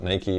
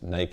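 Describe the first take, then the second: First: Nike is pronounced the way the West says it. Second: Nike is pronounced the way Europe says it. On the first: "we call it Nike in the West" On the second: "Nike in Europe"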